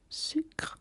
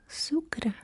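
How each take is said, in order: First: It is pronounced with French sounds. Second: It is pronounced with Catalan sounds. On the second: "Catalan will be sucre"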